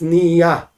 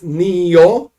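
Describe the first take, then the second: First: The word ends in an a sound. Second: The word ends in an o sound. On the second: "Nio with the commas"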